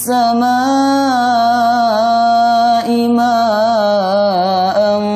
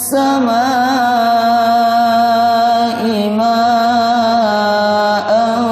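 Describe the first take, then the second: Both takes have the same delivery.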